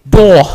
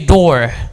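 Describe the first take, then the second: First: It is said in a British accent. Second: It is said in a general American accent. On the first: "If you want to pronounce it like the British" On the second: "If you want to pronounce it like the Americans"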